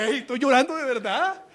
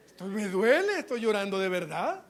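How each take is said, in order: First: High, loud child's protest, acted; mock indignant retort. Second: Mildly plaintive, acted complaint; mock pleading protest. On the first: Preacher as the spanked child answering the aunt, loud mock protest. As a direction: protest loudly, as if wronged. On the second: Preacher as the hurt child explaining to the aunt, mock plaintive. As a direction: plead the point with swooping pitch. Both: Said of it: "dan ganas de decirle".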